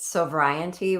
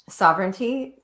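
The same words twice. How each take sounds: First: The word is said sounding like 'sobriety'. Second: The word is said in its usual form. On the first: The speaker calls it wrong. "I always mispronounce it sovereignty, which sounds like sobriety" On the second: The speaker calls it right. "I love that word"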